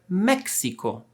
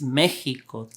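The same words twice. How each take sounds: First: The x is said as ks. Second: The x is not said as ks. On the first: This follows the general spelling rules. "following the rules, we should read this word" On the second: This is how it is said today. "the right pronunciation in Spanish nowadays is"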